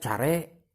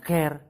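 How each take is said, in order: First: Said letter by letter, as Sundanese spelling reads. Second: Said with the English vowel, like 'ker'. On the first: This is how the word is written. "tulisna care" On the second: This is how the word is actually read. "dibacana care"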